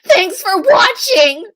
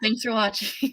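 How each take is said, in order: First: It is said imitating another woman's voice. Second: It is said in the speaker's normal voice.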